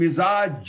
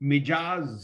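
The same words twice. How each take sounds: First: The consonant after mi is a z sound. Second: The consonant after mi is a j sound. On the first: The speaker calls it right. "मिजाज होता है" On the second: The speaker calls it wrong. "मिजाज नहीं होता"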